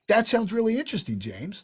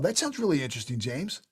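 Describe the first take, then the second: First: The tone sounds genuinely curious and interested. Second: The tone sounds flat and uninterested.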